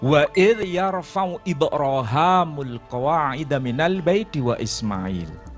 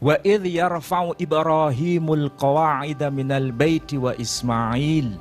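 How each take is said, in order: First: The name has a different dialectal pronunciation. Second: The name has its common, familiar pronunciation. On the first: This is a less common but valid reading. "membaca dengan dialek yang lain" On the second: This is how most people recite it. "Kalau sebagian besar kita membaca ayat itu kan bunyinya begini"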